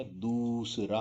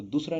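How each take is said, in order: First: दूसरा with a drawn-out दू; long vowel. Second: दूसरा with a short u in दू; higher दूसरा with clipped दू; short vowel. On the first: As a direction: slowly stretch the oo in दूसरा. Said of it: "दूसरा होता है". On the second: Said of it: "दूसरा नहीं होता". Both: Shown as a demonstration.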